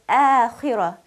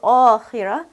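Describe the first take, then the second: First: The long vowel sounds thin and light. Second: The long vowel sounds full and heavy. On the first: The speaker calls it right. "pronounce this letter alif lightly" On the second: The speaker calls it wrong. "Not آخرة"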